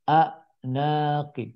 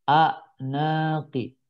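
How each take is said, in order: Both takes have the same delivery.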